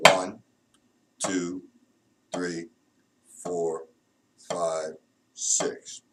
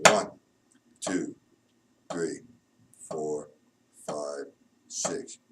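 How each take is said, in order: Both takes have the same delivery.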